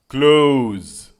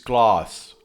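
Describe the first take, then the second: First: The word sounds like "close". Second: The word sounds like "class". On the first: The speaker calls it right. "It's close deletion" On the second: The speaker calls it wrong. "Piotr always says class, like this, like an animal"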